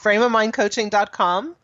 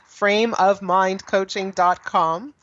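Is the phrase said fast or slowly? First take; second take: fast; slow. First: The phrase is spoken quickly. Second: The phrase is spoken more slowly. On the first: "I say it fast" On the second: "I'll say that again"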